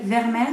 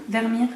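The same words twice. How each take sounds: First: "Vermeer" said as ver-MAIR; French-style pronunciation. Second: "Vermeer" said as ver-MEER; alternative pronunciation. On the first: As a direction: say "Vermeer" with an open è in the last syllable. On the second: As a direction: say "Vermeer" with a long ee in the last syllable. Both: Shown as a demonstration. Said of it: "je sais pas trop".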